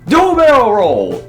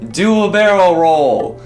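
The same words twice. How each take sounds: First: It is said with lively enthusiasm. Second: It is said flatly, without enthusiasm.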